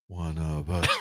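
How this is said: The phrase sounds eerie and creepy. It sounds like a sinister cult chant. "privately all I hear is"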